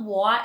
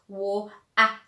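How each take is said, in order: First: The middle T is dropped with no stop. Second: The middle T is a clear glottal stop. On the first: The speaker calls it wrong. "they either don't pronounce it" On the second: The speaker calls it right. "it's wo ah"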